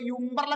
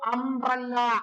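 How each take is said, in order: First: The word begins with a 'yoo' sound. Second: The word begins with an 'uh' vowel sound. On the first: The speaker calls it wrong. "ഒരു കുട്ടി ഇന്നവരെ പറഞ്ഞിട്ടില്ല" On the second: The speaker calls it right. "ഇവിടെ യുക്ക് ആ എന്ന sound ആണ്"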